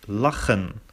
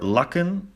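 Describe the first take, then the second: First: The middle consonant is a throaty ch. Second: The middle consonant is not a throaty ch. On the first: The speaker calls it right. "but lachen with a ch" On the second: The speaker calls it wrong. "So not lechen, lekken, or lachen"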